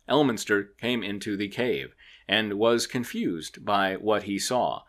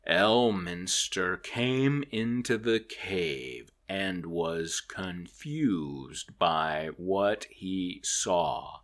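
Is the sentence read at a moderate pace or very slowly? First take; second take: moderate; very slowly. First: The sentence is read at a moderate, sped-up pace. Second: The sentence is read very slowly and drawn out. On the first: "even at 1.5 speed, it was like" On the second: "at regular speed, it was like"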